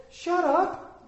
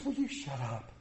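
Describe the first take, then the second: First: Very high-pitched mock telling-off; overdone impression of an exasperated wife; exaggerated scolding wife. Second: Soft, low, sweetly understated telling-off; imitating a wife's kindly put-down; nice, gentle rebuke. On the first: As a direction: cut in with a hammed-up, high wifely scolding. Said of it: "Not quite like that. She's much nicer". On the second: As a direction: say it so nicely that it barely registers. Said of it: "But she says it's so nice".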